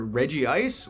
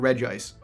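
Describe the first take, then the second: First: The first part has two syllables before 'ice'. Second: The first part has one syllable before 'ice'. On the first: "has a debated pronunciation. It's either"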